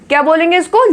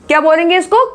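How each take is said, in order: No difference in how they are said.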